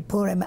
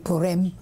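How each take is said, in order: First: It is said with an Eastern European pronunciation. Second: It is said with an Israeli Hebrew pronunciation. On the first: "I think that this comes from uh, Eastern Europe" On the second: "which is the way they do it in Israel"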